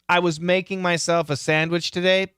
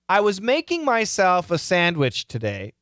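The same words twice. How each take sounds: First: It is said at a natural speed. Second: It is said slowly and carefully. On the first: "the second time, I'll do it natural" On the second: "the first time, repeat after me"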